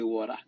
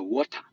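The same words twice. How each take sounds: First: It is said with an American accent. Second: It is said with a Ghanaian accent.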